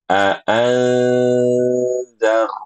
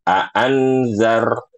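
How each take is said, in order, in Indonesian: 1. Bunyi n tersembunyi dalam dengung sengau. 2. Bunyi n diucapkan dengan jelas dan penuh. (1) "bukan ikhfa" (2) "izhar. Karena ibu bacanya aan"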